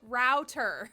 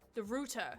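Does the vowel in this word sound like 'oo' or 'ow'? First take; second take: ow; oo. First: The vowel is an 'ow' sound, like out. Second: The vowel is an 'oo' sound, like rooster. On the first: This is the non-British way of saying it. The speaker calls it right. "Like R O U, like how it's spelled. That's the right way to say it" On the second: This is the British way of saying it. The speaker calls it wrong. "Susie pronounces the word router as rooter. ... like rooster without the S"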